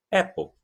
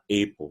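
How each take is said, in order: First: "apple" said AP-ol, open short A; "apple" with open "eh-a" vowel, no glide; correct pronunciation. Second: "apple" said EY-po, with the alphabet A; "apple" starting on a long "ay" vowel; wrong pronunciation. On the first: Teacher giving learners the right form, open-vowel "apple". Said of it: "vai falar apple". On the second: Teacher warning against the learner's mistake, EY-po "apple". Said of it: "não vai falar apple". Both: Shown as a demonstration.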